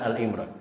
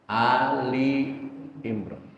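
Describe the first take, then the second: First: The first word has one syllable, lam joined. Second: The first word has two syllables, lam separated. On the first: The speaker calls it wrong. "bukan Al Imran" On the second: The speaker calls it right. "Di sini lamnya misah"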